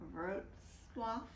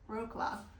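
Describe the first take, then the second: First: The name is said with Polish sounds. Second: The name is said with English sounds. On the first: "but it's really, as you heard" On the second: "we will probably just call it Wrocław, um, which is how we would pronounce it"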